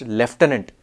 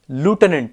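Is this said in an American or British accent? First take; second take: British; American. First: It is said in a British accent. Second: It is said in an American accent. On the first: "in British English it's pronounced lieutenant" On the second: "It's pronounced lieutenant in American English"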